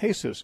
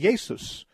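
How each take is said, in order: First: The name is said the Spanish way. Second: The name is said the German way. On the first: "it's pronounced Jesus" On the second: "the J is pronounced like a Y"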